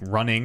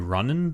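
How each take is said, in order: First: The word ends with an 'ing' sound. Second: The word ends with an 'en' sound.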